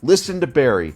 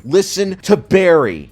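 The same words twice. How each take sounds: First: Said in the usual way. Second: "Listen to Barry" louder, higher and slow, stress on "to"; emphatic repeat. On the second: Real, not acted. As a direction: drag out "Listen to Barry" as a loud demand.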